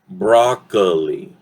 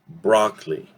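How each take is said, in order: First: The middle vowel is a full 'o' sound. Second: The middle vowel is a reduced 'uh' sound. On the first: The speaker calls it wrong. "many people, that's how they tend to say it" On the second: The speaker calls it right. "more like an uh, gets reduced"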